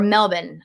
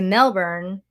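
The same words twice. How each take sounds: First: It is said the way locals say it. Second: It is said the speaker's own non-local way. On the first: The speaker calls it right. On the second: The speaker calls it wrong.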